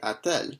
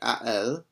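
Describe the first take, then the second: First: A t sound links the two vowels. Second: The two vowels meet with no t between. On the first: The speaker calls it right. "a bit nicer of a flow to it" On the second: The speaker calls it wrong. "much more challenging to say a elle"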